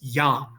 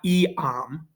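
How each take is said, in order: First: It is said as one syllable, yam. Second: It is said as two syllables, ee-am. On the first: The speaker calls it right. "It's one. It's yam" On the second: The speaker calls it wrong. "not eam, right? Two syllables"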